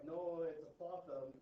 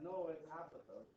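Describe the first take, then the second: First: "apothem" as uh-POTH-um, slowly insisted; second-syllable stress. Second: "apothem" as AP-uh-thum, lightly mimicked correction; first-syllable stress. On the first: Retold or imitated. Math teacher correcting the speaker, "apothem" stressed on the second syllable. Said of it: "math teachers that are like". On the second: Other math teachers disagreeing, "apothem" stressed on the first syllable. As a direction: counter with the opening short a stressed in "apothem". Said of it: "and then some others like".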